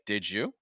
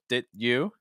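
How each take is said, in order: First: The d and y blend into a j sound. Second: The d is held without a clear release. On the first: "that d sound, because it's followed by a y, becomes like a j" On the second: "with kind of a held sound"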